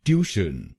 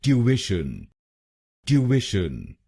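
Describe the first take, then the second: First: ट्यूशन said as "tyooshun", two syllables, no middle vowel; common Indian mispronunciation. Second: ट्यूशन as "tyoo-ish-un", three syllables, clear "tyoo"; British pronunciation. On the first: Teacher demonstrating the wrong Indian version, flat and plain. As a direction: say ट्यूशन the usual Indian way, "tyoo-shun". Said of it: "सबको ये शब्द ट्यूशन बोलते हुए सुना है". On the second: English teacher modelling British ट्यूशन for Indian learners. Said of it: "British English में इसको बोलेंगे". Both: Shown as a demonstration.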